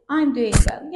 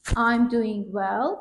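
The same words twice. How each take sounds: First: Said in the usual way. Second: Slow demo. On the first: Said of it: "How's it going?". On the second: Shown as a demonstration.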